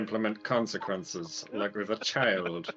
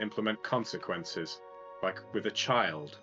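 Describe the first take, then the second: First: It is said in a slow, deep impersonated voice. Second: It is said in the speaker's ordinary voice.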